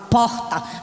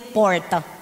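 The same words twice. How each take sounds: First: It is said in a northeastern Brazilian accent. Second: It is said in a non-northeastern Brazilian accent. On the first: "eu falo porta, porque eu sou nordestina" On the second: "Era a mesma coisa que mandar eu dizer porta. Eu não sei dizer porta"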